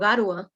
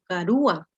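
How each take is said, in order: First: The u glides into the a, unstressed. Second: The u is stressed as its own syllable. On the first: The speaker calls it wrong. "Yo no digo garua" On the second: The speaker calls it right. "Sino digo garu- garúa"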